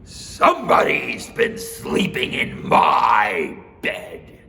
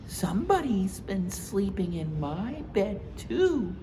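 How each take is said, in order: First: Slow, loud, gruff bear; Papa Bear voice. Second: Mama Bear voice. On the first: Papa Bear warning his family, slow and loud. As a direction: growl out the warning slowly. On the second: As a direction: agree brightly with Papa. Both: Acted.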